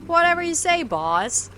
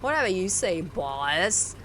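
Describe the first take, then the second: First: It is said in a plain tone. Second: It is said in a snarky tone.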